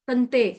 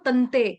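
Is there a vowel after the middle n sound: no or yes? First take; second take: no; no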